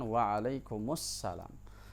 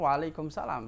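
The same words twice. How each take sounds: First: The greeting is said fully, every sound pronounced. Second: The greeting is clipped, with sounds cut off. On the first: The speaker calls it right. "Harusnya mereka mengucapkan" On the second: The speaker calls it wrong. "Padahal Waalaikumsalam itu terputus"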